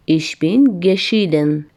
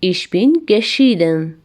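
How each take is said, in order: First: Very slow, word by word, stretched out; slower repeat. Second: Slow, clear German model sentence; slow model phrase. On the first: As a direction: drag it out for the class to repeat. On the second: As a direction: say it slowly so learners can copy. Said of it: "Ich bin geschieden. (repeated)". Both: Shown as a demonstration.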